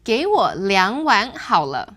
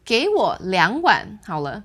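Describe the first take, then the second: First: It is said smoothly without a break. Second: There is a break between 两碗 and 好了.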